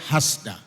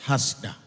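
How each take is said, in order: Both takes have the same delivery.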